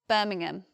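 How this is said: It is said with a London accent. "I'm from the south of England and from London, and we just say Birmingham"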